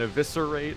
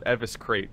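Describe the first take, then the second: First: The word is said with four syllables. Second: The word is said with three syllables. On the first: The speaker calls it right. "World of Warcraft taught me so many words and how to pronounce them" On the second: The speaker calls it wrong. "we all used to call it Eviscrate because we had never seen it before"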